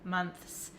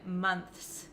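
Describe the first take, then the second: First: It ends with a th sound before the s. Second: The same.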